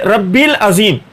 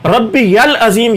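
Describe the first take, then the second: First: The 'ya' sound in the middle is dropped. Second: The 'ya' sound in the middle is kept. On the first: The speaker calls it wrong. "रब्बी यल अजीम नहीं पढ़ते" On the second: The speaker calls it right. "ये अल्फाज दुरुस्त है"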